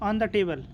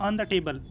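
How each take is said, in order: No difference in how they are said.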